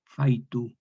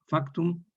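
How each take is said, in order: First: "faitu" with k turned into i, fai-tu; vocalized form. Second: "Factum" with a clear k-t cluster, high; Latin form. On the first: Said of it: "Se vocaliza". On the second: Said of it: "en factum". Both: Shown as a demonstration.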